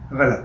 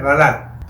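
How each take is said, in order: First: غلط said casually wrong, without a full short "a" on the lam; the faulty everyday pronunciation "ghalt" for غلط; mispronounced غلط. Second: غلط slowly as "gha-lat", short "a" on both syllables; slow, correct "gha-LAT" for غلط; corrected pronunciation of غلط. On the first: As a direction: say غلط as the slip "ghalt", not "gha-lat". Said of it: "جیسے لفظ ابھی میں نے کہا". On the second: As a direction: teach غلط carefully, with zabar on ghain and on lam. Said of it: "جبکہ لفظ ہے غلط". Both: Shown as a demonstration.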